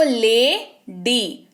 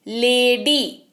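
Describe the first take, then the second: First: "lady" very slowly, split as ले, then डी; teacher sounding out both syllables of "lady". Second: Said in the usual way. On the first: Shown as a demonstration. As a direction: break "lady" into two separate drawn-out beats. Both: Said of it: "double syllable सुनाई दे रहा है आपको".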